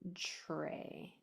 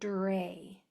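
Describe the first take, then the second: First: It begins with a sound like CH then R. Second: It begins with a clear, crisp D and R. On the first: The speaker calls it wrong. "Or it might sound like a C H R" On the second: The speaker calls it right. "I want to hear the D and the R"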